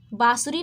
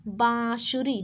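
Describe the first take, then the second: First: बाँसुरी wrongly said with an oral बा; no nasal sound. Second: बाँसुरी with a drawn-out nasal बाँ; nasalised first vowel. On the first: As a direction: drop the nasal from the first vowel of बाँसुरी. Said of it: "नहीं". (बाँसुरी का पहला स्वर बिना नाक के) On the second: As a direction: send the first vowel of बाँसुरी through the nose. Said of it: "नाक से बोलेंगे बाँसुरी". (बाँसुरी का बाँ नाक से) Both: Shown as a demonstration.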